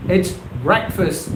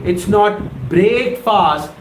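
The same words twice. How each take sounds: First: "breakfast" said short as "brekfəst"; correct pronunciation. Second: "breakfast" said slowly as "break-fast", the wrong way; wrong pronunciation. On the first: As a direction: say "breakfast" the right way, "brek-fust". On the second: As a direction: draw out "breakfast" as "break fast", both halves long. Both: Shown as a demonstration. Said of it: "the right pronunciation of this word".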